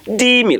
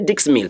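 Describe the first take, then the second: First: The final consonant of dix is silent. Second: The final consonant of dix is pronounced. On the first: The speaker calls it right. "you say d mille" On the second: The speaker calls it wrong. "You don't say dix mille"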